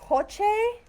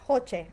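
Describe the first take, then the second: First: Hoche asked with a high questioning rise; testing out Hoche, high and unsure; unsure name try. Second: Hoche said firmly with a falling close; deciding on Hoche; settled name try. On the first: Host trying a viewer's name Hoche, rising and unsure. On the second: Host settling on the viewer's name Hoche, falling and firm. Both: Shown as a demonstration. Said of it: "Am I saying your name right?".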